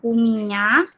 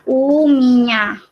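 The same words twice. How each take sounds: First: "uminya" with a rising end; pronunciation demo. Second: "uminya" with a long opening u; pronunciation demo. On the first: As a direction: lift the last syllable of "uminya". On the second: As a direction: stretch the first vowel of "uminya". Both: Shown as a demonstration. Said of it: "Bacanya uminya".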